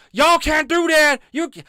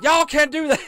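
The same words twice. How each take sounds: First: Put-on failed Southern accent. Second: High, loud yell in a bad Southern twang; failed Southern accent. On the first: Mocking Frank yelling at Karens in a bad Southern accent. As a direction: bellow it in a bad Southern twang, much higher. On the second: Mocking Frank yelling again in a bad Southern accent. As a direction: shout it like a put-on Southerner, much higher and louder. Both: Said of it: "I can't do Frank's accent".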